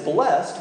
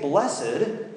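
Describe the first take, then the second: First: The word is said with one syllable. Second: The word is said with two syllables. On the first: It is past tense: someone blessed it. "one syllable" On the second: It is an adjective describing a quality. "two syllables"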